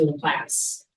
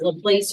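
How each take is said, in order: First: Laplace rhyming with "class"; Laplace as "la-PLASS". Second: Laplace rhyming with "face"; Laplace as "la-PLACE". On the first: Presenter offering other option for surname, Laplace said as "la-PLASS". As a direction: say Laplace with a short A, like "lass". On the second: Presenter unsure of specialist's name, Laplace said as "la-PLACE". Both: Shown as a demonstration. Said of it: "is it Laplace or Laplace".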